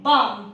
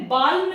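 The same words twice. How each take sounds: First: बाम said as baam, L silent; correct version. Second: बाल्म said with the L sounded, as balm; wrong version. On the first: Teacher to students, giving बाम as the correct silent-L form. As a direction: say बाम with no L sound. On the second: Teacher to students, giving बाल्म as the wrong version. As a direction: sound the L in बाल्म to show the mistake. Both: Shown as a demonstration. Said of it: "बाल्म नहीं".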